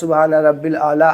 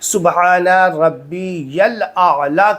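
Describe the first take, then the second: First: 'Rabbi' runs straight into 'l' with no 'ya'. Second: A clear 'ya' sound follows 'Rabbi'. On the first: The speaker calls it wrong. "ऐसे नहीं" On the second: The speaker calls it right. "सुबहाना रब्बी यल आला कहना है"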